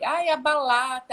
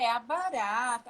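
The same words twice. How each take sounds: First: "balata" with an L sound where the R should be; child swapping R for L. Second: Said in the usual way. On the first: Shown as a demonstration. Child mispronouncing barata as balata, L in place of R. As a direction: say "balata" like a toddler who cannot roll the R yet. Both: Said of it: "trocar o R pelo L".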